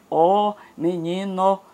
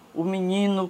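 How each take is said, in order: First: The article is a full open vowel, then a pause. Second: The article is a reduced vowel joined to the noun. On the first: It is read aloud to match the spelling. The speaker calls it wrong. "ele diz ó, menino" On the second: This is how people naturally speak. The speaker calls it right. "como a gente fala"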